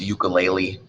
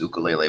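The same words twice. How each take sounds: First: The word is said the common local way. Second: The word is said the traditional way. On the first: "Here pronounced ukulele" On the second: "proper pronunciation is ukulele"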